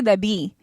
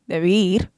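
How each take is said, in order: First: The word ends in a vowel without R. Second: The word ends with an R sound. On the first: "I don't say debí" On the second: "I say debir with an R"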